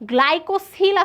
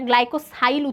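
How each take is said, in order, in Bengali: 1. মাঝের সিলেবলে একটি ছোট 'i' স্বরধ্বনি আছে। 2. মাঝের সিলেবলে একটি 'eye' স্বরধ্বনি আছে। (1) "আছে বইতে" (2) "এটা গ্লাইকোসাইল উচ্চারণ"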